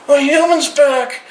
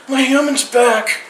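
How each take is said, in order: Both takes have the same delivery.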